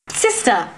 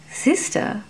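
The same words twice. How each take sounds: First: A lightly raised alarmed call; mild cry. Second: Unvoiced, softly sniffing out a secret; breathy whisper. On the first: Nun cries out to stop her sister, mild alarm. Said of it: "Lairon cried". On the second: Fairy whispers the title, tasting it, hushed. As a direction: whisper it like a discovery. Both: A narrator's reading.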